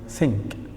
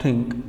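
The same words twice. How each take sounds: First: It starts with a soft th sound. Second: It starts with a hard t sound. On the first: The speaker calls it right. "it is think" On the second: The speaker calls it wrong. "not think"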